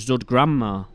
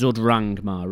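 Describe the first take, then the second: First: The second word begins with a 'gr' sound. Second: The second word begins with an 'r' sound. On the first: The speaker calls it wrong. "I used to call it Zud Grandma, but the correct pronunciation isn't Grandma" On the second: The speaker calls it right. "It's Zud Rangmar Records"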